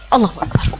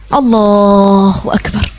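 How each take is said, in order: First: It is said quickly and hurriedly. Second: It is said slowly and deliberately. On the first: The words are rushed without reflecting on them. The speaker calls it wrong. "Ada orang takbirnya cepet bener" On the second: The words are said while reflecting on their meaning. The speaker calls it right. "Tuh, menghayati dari mulai awal sholat"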